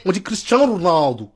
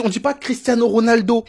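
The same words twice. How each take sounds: First: "Cristiano Ronaldo" run together with Portuguese sounds; mock Portuguese accent. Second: Said in the usual way. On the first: Portuguese fans correcting the name, mock Portuguese accent. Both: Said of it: "Si les Portugais".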